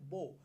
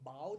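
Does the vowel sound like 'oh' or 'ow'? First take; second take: oh; ow. First: The vowel sounds like 'oh'. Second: The vowel sounds like 'ow'. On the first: It names a weapon for shooting arrows. "আমি যখন বলছি বো, বো মানে আমি বলছি হচ্ছে ধনু" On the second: It means bending forward in respect. "বাও যখন বলছি তখন আমি বলছি নত জানু"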